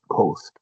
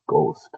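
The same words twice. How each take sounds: First: The first g sound carries a puff of breath. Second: The first g sound is plain, without breath. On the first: "We pronounce ghost, because it's written with G H" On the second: "we almost never pronounce ghost"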